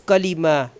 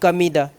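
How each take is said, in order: First: The middle consonant is an L sound. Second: The middle consonant is a D sound. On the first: The speaker calls it right. "It's Kalima" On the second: The speaker calls it wrong. "You are reading Kamida"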